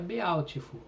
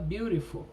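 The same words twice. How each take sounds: First: The vowels are read just as they are spelled. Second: The vowels have their modern English sounds. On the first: This is how it sounded long ago. "antigamente, se fosse para escrever Beautiful, também falaria Beautiful" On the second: This is how it is said today. "mas se fala Beautiful"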